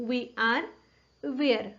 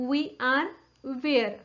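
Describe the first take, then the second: No difference in how they are said.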